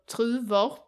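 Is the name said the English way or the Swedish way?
Swedish. The name is said with Swedish pronunciation.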